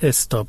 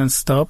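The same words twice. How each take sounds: First: A short vowel is added before the s. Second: The word begins directly with the s sound. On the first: "یه ام زده" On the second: "انگلیسی میگن"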